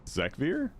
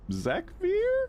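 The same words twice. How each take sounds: First: It is said as a plain, mild question. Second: It is said as a strong, insistent question. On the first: "like I'm asking" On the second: "like I'm really asking"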